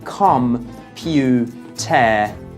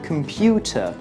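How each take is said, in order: First: Each syllable is said separately with full vowels. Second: The unstressed syllables are reduced to schwa. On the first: The speaker calls it wrong. "you don't say com-pu-ter" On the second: The speaker calls it right. "you say computer"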